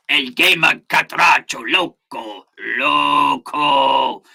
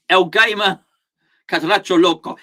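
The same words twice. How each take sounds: First: Slow, hammed-up Spanish accent; mock Spanish accent. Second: Said in the usual way. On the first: Reading out a chatter's name, exaggerated Spanish accent. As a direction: draw out the Spanish name with relish.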